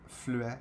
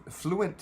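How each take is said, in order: First: Fluent said the French way, flu-ê, soft and trailing off; Fluent with a French u and a dropped ending; Frenchified fluent. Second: Fluent said the English way, FLOO-ent; fluent with an English vowel, stress on the first syllable. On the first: Streamer trying the French form and rejecting it, Frenchified Fluent. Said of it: "ça se dit pas". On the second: Streamer asking his viewers how to say the word, English fluent. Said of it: "how do you say fluent in French?". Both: Shown as a demonstration.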